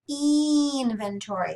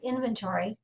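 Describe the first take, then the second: First: The word is pronounced in an odd way. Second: The word is pronounced in the usual way. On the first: "I'm going to pronounce it from now on" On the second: "the word I'm saying is inventory"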